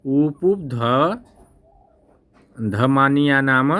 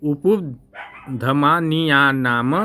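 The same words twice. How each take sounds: First: Said in the usual way. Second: उपधमानिया नाम drawn out syllable by syllable, very slowly; slow syllable demo. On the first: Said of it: "क्या बोला जाता है". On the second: Shown as a demonstration. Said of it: "देखिए". (उपधमानिया नाम धीरे-धीरे, अक्षर-अक्षर)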